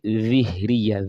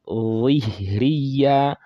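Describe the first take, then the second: First: The first consonant is light, without mouth-filling heaviness. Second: The first consonant is heavy and fills the mouth. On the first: The speaker calls it wrong. "You don't say ظهرية" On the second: The speaker calls it right. "The heaviness will fill the mouth and then you release it"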